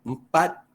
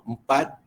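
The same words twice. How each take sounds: The two takes are said the same way.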